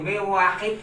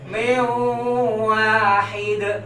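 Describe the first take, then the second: First: The nasal hum is cut short. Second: The nasal hum is held for two beats. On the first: The speaker calls it wrong. "Mewahid itu nggak boleh" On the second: The speaker calls it right. "Maka kita tahan dulu"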